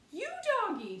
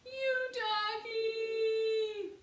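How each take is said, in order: First: Put-on very high, very loud child's scream; little girl screaming for her dog. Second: Very high, loud, very slow sung-out wail; little girl's long sobbing wail. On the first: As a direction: scream after the runaway dog. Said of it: "screamed Honey". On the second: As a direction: stretch the dog's name into a long wail. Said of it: "Honey wailed". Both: A narrator's reading.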